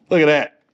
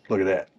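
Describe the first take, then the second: First: Punched-up, loud self-admiration; louder repeat. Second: Said in the usual way. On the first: Real, not acted. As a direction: show it off much louder. Louder repeat, admiring own work.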